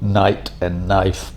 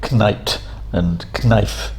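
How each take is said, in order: First: Each word starts with an n sound. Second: Each word starts with a k sound. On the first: This is the modern English form of the words. "by removing the initial k sound" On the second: This is the older form of the words. "things that begin with kn"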